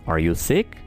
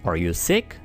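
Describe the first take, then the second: No difference in how they are said.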